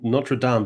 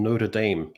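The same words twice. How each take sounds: First: The name is said with a French pronunciation. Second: The name is said with an American pronunciation. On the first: "the weird transatlantic transmutation that went on where N- Notre Dame" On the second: "became Notre Dame"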